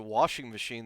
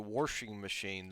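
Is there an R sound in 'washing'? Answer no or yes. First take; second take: no; yes. First: The word washing has no R sound. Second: The word washing has an added R sound. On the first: The speaker calls it right. "there's no there's no freaking R in there at all" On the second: The speaker calls it wrong. "they're just adding letters"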